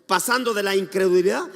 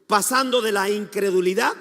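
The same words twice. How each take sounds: The two takes are said the same way.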